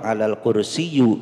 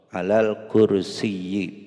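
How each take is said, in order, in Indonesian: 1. Kata terakhir berakhir dengan bunyi u. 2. Kata terakhir berakhir dengan bunyi i. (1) "Tidak boleh domah. Alal kursiyu itu salah" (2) "akhirnya harus dibaca yi"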